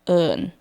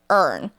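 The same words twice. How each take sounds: First: It sounds soft and gentle, in a Thai accent. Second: It sounds harsh and aggressive, in an American accent. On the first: The speaker calls it right. "This is how people say my name in Thai. ... It's softer" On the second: The speaker calls it wrong. "people here pronounce it like earn... that's like aggressive"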